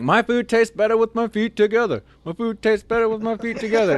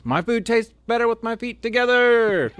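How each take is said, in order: First: High, loud chanting yell; mock yell. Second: High, far-off mock yell. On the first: Recruit yelling the slogan around the dining hall, high loud chant. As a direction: belt the slogan out proudly. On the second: Sergeant ordering the recruit to yell the slogan, high mock yell. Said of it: "yell at the top of your lungs".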